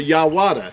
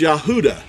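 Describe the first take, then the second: First: The middle of the name has a W sound. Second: The middle of the name has no V or W. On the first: The speaker calls it wrong. "or Yawada" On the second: The speaker calls it right. "It's Yahuda"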